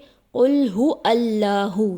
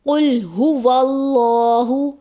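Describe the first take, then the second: First: Hu and allahu are said separately without linking. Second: Hu and allahu are joined smoothly with a w. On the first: The speaker calls it wrong. "अलिफ को ज़बर देकर पढ़ दिया जाता है ... जो कि दुरुस्त अदायगी नहीं" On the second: The speaker calls it right. "दुरुस्त अदायगी है"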